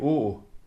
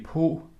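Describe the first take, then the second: First: The word is said with an 'å' vowel. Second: The word is said with an 'o' vowel. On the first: This is the West Jutland dialect form. "jeg siger å" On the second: This is the Mid-Jutland dialect form. "Hos Blicher siger de po"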